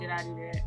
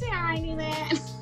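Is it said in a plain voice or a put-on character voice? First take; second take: plain; character voice. First: It is said in a plain, ordinary voice. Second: It is said in an imitated character's voice.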